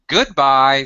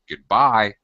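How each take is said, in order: First: The stress is on the first syllable. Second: The stress is on the second syllable. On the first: "sometimes we say goodbye" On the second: "here we're stressing the second sound"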